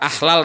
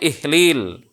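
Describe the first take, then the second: First: The word is said with 'a' vowels. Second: The word is said with 'i' vowels. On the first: The speaker calls it wrong. "orang ahlal" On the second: The speaker calls it right. "dengan kasroh pada huruf hamzahnya"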